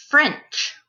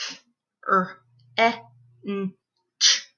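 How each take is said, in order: First: Said in the usual way. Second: FRENCH split into five sounds; f... r... eh... n... ch, with gaps; sounded out phonemes. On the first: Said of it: "breaking down those words". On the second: Shown as a demonstration. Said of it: "breaking down those words into their sounds".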